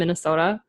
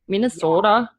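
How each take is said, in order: First: It is said in a plain, ordinary accent. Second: It is said in an exaggerated regional accent.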